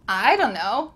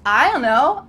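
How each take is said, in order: First: It is reduced but keeps a D sound. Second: It is reduced with no D sound. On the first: "It kind of sounds like D U N N O" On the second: "cut out the D sound"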